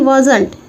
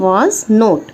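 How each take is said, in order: First: It is said as one contracted word. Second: It is said as two separate full words. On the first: "ये short form है" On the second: "full form में बोलेंगे"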